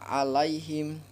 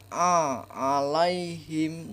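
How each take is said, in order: First: The word starts with a plain vowel. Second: The word starts with a throaty tightened sound. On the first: The speaker calls it wrong. "jangan dibaca alaihim" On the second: The speaker calls it right. "dibaca a alaihim"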